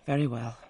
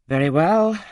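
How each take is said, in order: First: Said in the usual way. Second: Loud, higher "Very well"; a loud, raised "Very well"; emphatic agreement. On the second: A narrator's reading. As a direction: burst out in consent.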